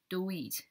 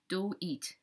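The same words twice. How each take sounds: First: The word 'it' has a long 'ee' vowel. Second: The word 'it' has a long 'ee' vowel.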